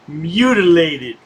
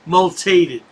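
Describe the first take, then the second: First: The word is said with all four syllables. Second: The word is said with a syllable dropped. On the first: The speaker calls it right. "can't pronounce the word mutilated" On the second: The speaker calls it wrong. "He says multated"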